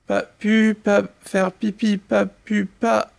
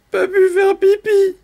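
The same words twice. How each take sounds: First: Halting, small stammer. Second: Very high, whiny mock whimper; whimpering little canary. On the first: Acted. Little canary excuses himself to his siblings, halting stammer. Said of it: "bredouille le pauvre petit". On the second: Little canary excuses himself to the animals, whimpering. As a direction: whine it like a tiny bird. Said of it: "pleurniche le petit canari".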